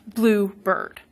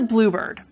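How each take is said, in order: First: Both parts carry equal stress. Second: Only the first part carries stress. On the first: It is some bird that happens to be blue. "they both were getting stress" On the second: It names a particular kind of bird. "In bluebird, the compound, stress is on the first syllable. The second one is unstressed"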